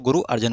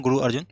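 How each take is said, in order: First: "अर्जन" said with a short a in the second syllable; Arjan pronunciation. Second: "अर्जुन" said with a short u in the second syllable; Arjun pronunciation. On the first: Teacher showing the other name variant, "अर्जन" said with a. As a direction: say "अर्जन" as ar-JAN, no u. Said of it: "कुछ लोग गुरु अर्जन बोलते हैं". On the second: Teacher showing one name variant, "अर्जुन" said with u. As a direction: say "अर्जुन" as ar-JUN, with u. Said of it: "कुछ लोग अर्जुन भी बोलते हैं". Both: Shown as a demonstration.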